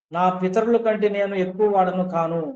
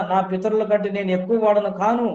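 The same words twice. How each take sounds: No difference in how they are said.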